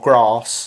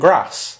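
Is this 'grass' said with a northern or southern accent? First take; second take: southern; northern. First: It has a long southern 'a' vowel. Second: It has a short northern 'a' vowel. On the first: "I don't say" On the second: "I say"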